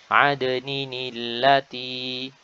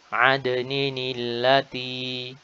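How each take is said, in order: No difference in how they are said.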